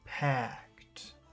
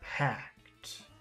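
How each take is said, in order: Both takes have the same delivery.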